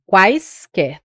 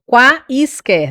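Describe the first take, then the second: First: "quaisquer" said slowly as one glide; correct glide. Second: "quaisquer" split into separate vowels, slowly; wrong split. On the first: Teacher shows right "quaisquer" to students. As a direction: say "quaisquer" slowly, vowels together. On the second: Teacher shows wrong split of "quaisquer" to class. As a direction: break "quaisquer" apart slowly. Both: Shown as a demonstration. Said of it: "não, é quaisquer".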